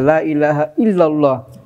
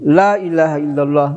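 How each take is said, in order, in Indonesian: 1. Tekanan jatuh pada kata illallah. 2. Tekanan jatuh pada kata la. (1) "illallah itu tekanan" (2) "Ada juga terdekat tekanannya pada la"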